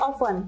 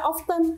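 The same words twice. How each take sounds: First: The T sound is left silent in the middle. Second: The T sound is pronounced in the middle. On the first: The speaker calls it right. "yang benar itu often. Dia silent T, T-nya tidak dibaca" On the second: The speaker calls it wrong. "kita jangan baca often"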